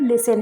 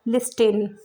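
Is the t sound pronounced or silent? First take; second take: silent; pronounced. First: The t sound is silent in the middle. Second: The t sound is pronounced in the middle. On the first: The speaker calls it right. "Correct pronunciation है वो लिसन है, तो यहाँ पर टी silent है" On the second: The speaker calls it wrong. "Letter by letter pronounce करें ... जो कि रॉन्ग होगा"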